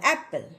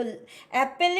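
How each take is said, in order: First: एप्पल with no vowel sounded before the final L; syllabic L. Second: एप्पल said with a full vowel before the L; wrong pronunciation. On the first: Teacher modelling apple for students, syllabic L. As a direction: let the L alone carry the last syllable of एप्पल. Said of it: "उस वॉल का". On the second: Teacher showing students what to avoid, wrong pronunciation. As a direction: voice the vowel in the last syllable of एप्पल. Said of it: "एप्पल ही नहीं बोलना". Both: Shown as a demonstration.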